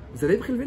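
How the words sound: The question is asked in a gentle, soft tone. The request will be received and accepted. The speaker calls it right.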